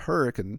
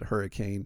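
First: It is pronounced differently from the storm word. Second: It is pronounced exactly like the storm word. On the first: The speaker is from the area. The speaker calls it right. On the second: The speaker is not from the area. The speaker calls it wrong.

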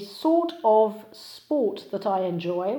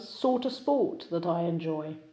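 First: Each word is pronounced fully and separately. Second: The words are reduced and linked together.

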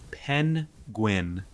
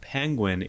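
First: The N and G sounds are pulled apart. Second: The N and G sounds run together. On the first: "you separate the N and the G" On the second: "it's not penguin"

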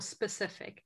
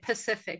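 First: The word is said with its first s sound. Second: The word is said without its first s sound. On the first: The speaker calls it right. "rather than saying this for specific" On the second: The speaker calls it wrong. "They might pronounce words incorrectly"

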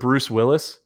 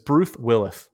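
First: The s sounds are said clearly. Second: The s sounds are said with a lisp. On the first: "instead of Bruce Willis" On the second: "it's with a lisp here"

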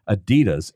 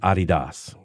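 First: It is said the common American way. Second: It is said the way most other countries say it. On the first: This is how Americans usually say the name. "In America, we just say Adidas" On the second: This is how the founder said his own name. "everyone else in the world, pronounces it Adidas"

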